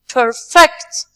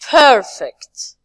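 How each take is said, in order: First: The stress is on the second syllable. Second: The stress is on the first syllable. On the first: It is used as a verb. "The second part" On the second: It is used as an adjective. "when we move to the nouns and adjective, we say"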